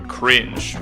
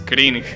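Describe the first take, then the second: First: It is said with an English pronunciation. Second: It is said with a Spanish pronunciation.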